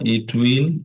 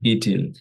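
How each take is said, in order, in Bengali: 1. দুটো পূর্ণ শব্দ হিসেবে বলা হয়, will পুরোপুরি উচ্চারিত। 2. একটি যুক্ত শব্দ হিসেবে বলা হয়, will হালকা করে উচ্চারিত।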